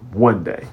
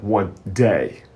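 First: The stress is on "one". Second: The stress is on "day".

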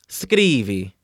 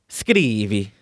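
The two takes are said the same way.

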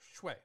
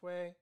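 First: The pitch falls sharply from high to low. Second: The pitch stays high and level throughout. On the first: It means blood. "for blood, it's fourth tone" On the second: It means reducing. "In this one, it's first tone"

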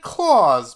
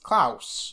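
First: The name is said like Santa Claus. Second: The name is said unlike Santa Claus. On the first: The speaker calls it wrong. "we've said Claus" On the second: The speaker calls it right. "but his name's not Claus, it's Klaus"

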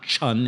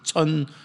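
First: It begins with an English ch sound. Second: It begins with a sharp t-s sound. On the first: The speaker calls it wrong. "Like we say in English, it's not chun" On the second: The speaker calls it right. "there's a little t in there"

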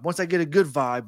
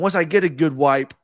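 First: The word 'vibe' starts with a V sound. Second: The word 'vibe' starts with a W sound. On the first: "he was trying to say" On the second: "he would pronounce his V's as W's"

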